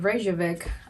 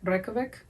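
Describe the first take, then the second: First: It is said with an American accent. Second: It is said the way locals say it. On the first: The speaker calls it wrong. "I think I'm pronouncing it with uh, American accent" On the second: The speaker calls it right. "That's how they pronounce it"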